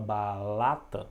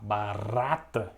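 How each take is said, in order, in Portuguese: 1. A consoante do meio é um som de L. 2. A consoante do meio é um som de R. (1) "Ele troca o som do R pelo som do L" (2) "ao invés de falar barata"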